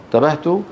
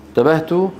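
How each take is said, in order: No difference in how they are said.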